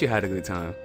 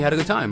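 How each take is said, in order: First: It is said in a low, suggestive voice. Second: It is said in a plain, ordinary voice. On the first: It hints at something sexual. "See, it comes off more sexual" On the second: It is just a neutral reply. "And that's nothing"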